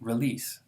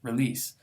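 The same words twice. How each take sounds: First: It is said fast with a reduced first vowel. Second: The same.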